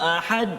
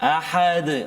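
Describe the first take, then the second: First: The final consonant has no bounce at all. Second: The final consonant bounces lightly and briefly. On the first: The speaker calls it wrong. "Hilang qalqalah dia" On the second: The speaker calls it right. "qalqalah yang sederhana uh, di akhir ayat kan"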